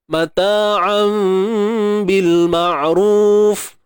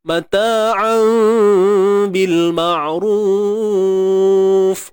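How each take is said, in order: First: The vowel in ma'ruf is held for two counts. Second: The vowel in ma'ruf is held for four counts. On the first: "Dua harakat" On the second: "Empat harakat"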